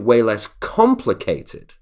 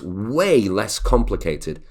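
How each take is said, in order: First: The word way is not stressed. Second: The word way is strongly stressed. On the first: The speaker calls it wrong. "we wouldn't say" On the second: The speaker calls it right. "We would really say the stress on way"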